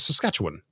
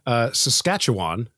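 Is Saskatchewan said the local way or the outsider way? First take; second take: local; outsider. First: The word is said the way locals say it. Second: The word is said the common outsider way. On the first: The speaker calls it right. "The way that they pronounce it there" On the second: The speaker calls it wrong. "as we pronounce it, is actually wrong"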